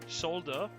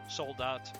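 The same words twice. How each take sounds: First: The final T is silent. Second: The final T is clearly pronounced. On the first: It is the French pronunciation. "Soldat is how you pronounce it in French" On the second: It is the German pronunciation. "soldat is how you pronounce it in German"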